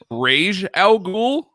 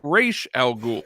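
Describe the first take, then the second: First: The first word ends with a 'j' sound. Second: The first word ends with an 'sh' sound. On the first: "is it Rage Al Ghul" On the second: "or is it Raish Al Ghul"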